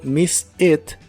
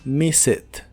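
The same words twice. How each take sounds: First: The two words are said separately. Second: The final s runs into the next word.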